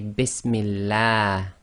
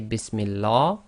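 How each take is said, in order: First: The L is said light, with a thin mouth. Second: The L is said heavy, with a full mouth. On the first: The speaker calls it right. "you must say" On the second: The speaker calls it wrong. "You cannot say"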